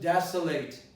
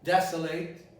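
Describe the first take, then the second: No difference in how they are said.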